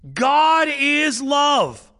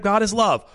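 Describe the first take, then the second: First: It is said slowly with awe. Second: It is said casually and flatly.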